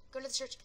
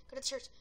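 No difference in how they are said.

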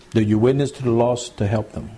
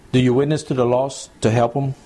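The two takes are said the same way.

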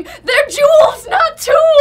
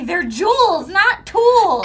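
First: Big booming shout, higher and louder. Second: Mom's saying. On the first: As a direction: boom it out like a scolding mom. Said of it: "Trisha's booming voice going". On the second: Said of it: "my mom would always say". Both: Retold or imitated.

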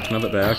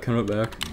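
First: "back" stressed at the end, rest light. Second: "Can" pushed up front, rest light; stress on can. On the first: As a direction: land the weight on "back". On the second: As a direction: lean on "Can" as if pleading. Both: Shown as a demonstration. Repeating with shifting stress.

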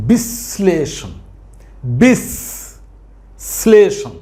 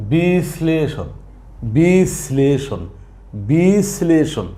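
First: বিশ্লেষণ as বিশ-শ্লেষণ; বিশ্লেষণ with শ heard twice, drawn out; doubled শ. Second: বিশ্লেষণ as open বি, then শ্লেষণ; বি-শ্লেষণ, the first syllable left open; undoubled pronunciation. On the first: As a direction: close the first syllable of বিশ্লেষণ on a long hiss, then say শ্লেষণ. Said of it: "সঠিক উচ্চারণ". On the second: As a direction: give বিশ্লেষণ a single শ. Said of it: "সাধারণভাবে উচ্চারণ করি". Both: Shown as a demonstration.

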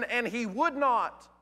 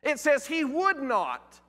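First: "would" leaned on, slowed; slow and weighty on "would"; stress on would. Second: "would" stressed, slow, higher; "would not" said slow, higher and pointed. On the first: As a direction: land hard on "would not". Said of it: "Now listen". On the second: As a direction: press "would" slowly against "could". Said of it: "It doesn't say he could not". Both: Shown as a demonstration.

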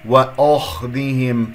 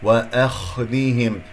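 First: وأخذهم with the أ darkened towards "o"; thickened hamza. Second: وأخذهم slow, with a thin "a" on the أ; light hamza. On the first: Teacher showing a possible slip, thickened hamza. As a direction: make the أ heavy before خ in وأخذهم. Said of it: "فخمت الهمزة المرققة". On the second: Teacher reciting for students, light hamza. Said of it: "هنا ممكن أن تقول". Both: Shown as a demonstration.

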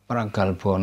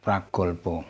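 First: "pragalbo" said "pra-gahl-baw"; "pragalbo" with ah before the l. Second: "pragolbo" said "pra-gawl-baw"; "pragolbo" with o before the l; wrong O vowel. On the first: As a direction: open the middle vowel of "pragalbo" to "ah". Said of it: "penultimate syllable with al doesn't follow". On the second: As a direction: round the middle vowel of "pragolbo" to o. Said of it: "not pragolbo". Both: Shown as a demonstration.

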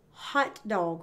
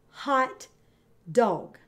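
First: Said in the usual way. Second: Hot dog with a long gap between hot and dog; split into syllables. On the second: Shown as a demonstration. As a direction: say hot dog as two separate beats. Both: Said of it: "divide 'em into syllables".

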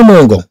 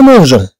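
First: مونغون with a hard g, read as spelled. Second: مونجون with a soft French j; soft j pronunciation. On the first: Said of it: "علاش؟". (مونغون بجيم صلبة كما تُكتب، نطق خاطئ) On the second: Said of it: "مع نو نقول". (مونجون بجيم فرنسية ناعمة، النطق الصحيح) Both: Shown as a demonstration.

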